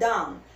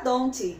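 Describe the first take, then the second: First: The final T is dropped or barely heard. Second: The final T is pronounced heavily. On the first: The speaker calls it right. "Você pronuncia don't" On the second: The speaker calls it wrong. "você não fala don't, tira esse Tzinho daí"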